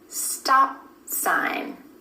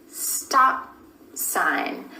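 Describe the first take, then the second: Both takes have the same delivery.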